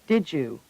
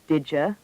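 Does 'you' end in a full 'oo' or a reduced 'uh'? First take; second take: full oo; reduced uh. First: The words blend into 'didju' with a full vowel. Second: The words blend into 'didja' with a reduced vowel. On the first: "U is commonly pronounced j or ju" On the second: "U is commonly pronounced j or ju"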